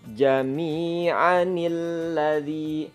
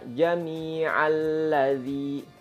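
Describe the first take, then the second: First: An 'n' sound links the two words. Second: The words join without an 'n' sound. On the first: The speaker calls it right. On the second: The speaker calls it wrong.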